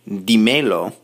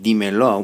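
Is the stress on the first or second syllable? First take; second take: second; first. First: The stress is on the second syllable. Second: The stress is on the first syllable. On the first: The speaker calls it wrong. "we don't want to say dímelo" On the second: The speaker calls it right. "now we're saying dímelo"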